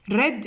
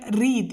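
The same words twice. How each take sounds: First: The vowel is short, rhyming with bed. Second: The vowel is long, rhyming with seed. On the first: The action happened in the past. "Read in the past" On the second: The action happens in the present. "here read in the present"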